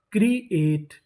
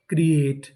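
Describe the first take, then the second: First: create split as क्री, एट; syllable by syllable. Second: Said in the usual way. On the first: Shown as a demonstration. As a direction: sound out create in two parts. Teacher sounding out new word.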